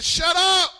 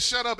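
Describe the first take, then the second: First: Higher-pitched, forceful command; preacher voicing a stern order; commanding rebuke. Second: Said in the usual way. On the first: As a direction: silence a storm with one sharp call. Jesus silencing the storm, acted.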